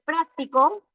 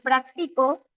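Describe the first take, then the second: First: Práctico stressed on its first syllable, PRÁC-ti-co; práctico with the accent at the start, on PRÁC. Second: Practico stressed on the middle syllable, prac-TI-co. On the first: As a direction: mark PRÁC clearly in práctico. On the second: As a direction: put the accent on TI in practico. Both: Shown as a demonstration. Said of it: "varíe al momento de yo pronunciar".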